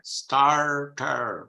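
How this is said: The R sounds are clearly pronounced. "she uses, you see, the erotic R"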